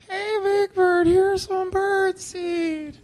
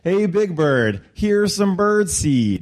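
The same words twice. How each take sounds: First: It is said shakily and nervously. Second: It is said smoothly and confidently.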